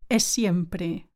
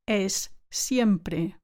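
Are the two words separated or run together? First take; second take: run together; separated. First: The two words run together with one long s. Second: The two words are said as separate sounds.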